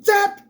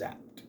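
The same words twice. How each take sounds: First: It is said loudly with excitement. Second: It is said plainly without excitement.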